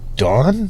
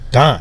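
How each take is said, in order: First: The vowel is non-Midwestern, like the girlfriend's. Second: The vowel is Midwestern, like the speaker's own. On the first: "She's like" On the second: "I'm like, no"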